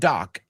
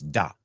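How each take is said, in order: First: The word ends with a k sound. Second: The word ends with a t sound. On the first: The speaker calls it wrong. "I've heard people say doc. It's not doc" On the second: The speaker calls it right. "it's dot. D O T"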